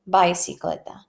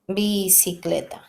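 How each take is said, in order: First: The first i sounds like English 'eye'. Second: The first i sounds like English 'ee'. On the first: The speaker calls it wrong. "That's not the right way to do to say it" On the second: The speaker calls it right. "Remember that I in Spanish is E"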